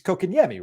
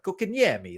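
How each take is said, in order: First: The name is said in a plain accent. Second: The name is said in an Italian-American accent. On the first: "It's it's Kokanyemi, right?" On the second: "Sometimes I put like a little a little accent on it"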